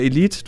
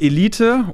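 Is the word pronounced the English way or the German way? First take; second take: English; German. First: The word is pronounced the English way. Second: The word is pronounced the German way.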